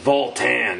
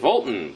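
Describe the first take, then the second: First: The second syllable has a full, strong vowel. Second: The second syllable has a softer, reduced vowel. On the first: The speaker calls it right. "It has to have that, like, you know, good second syllable to it" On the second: The speaker calls it wrong. "he does sort of like go with a softer A"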